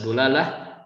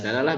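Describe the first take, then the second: First: The first syllable has the vowel u. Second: The first syllable has the vowel a. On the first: "bisa dibaca dulalah" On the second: "bisa dalalah"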